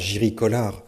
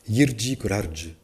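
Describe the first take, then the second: First: The name is said with French-style sounds. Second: The name is said with Czech-style sounds. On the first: The speaker calls it wrong. "On m'a dit non, pas Jiri Kolar" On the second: The speaker calls it right. "Je suis allé à Prague pour apprendre à prononcer ce mot"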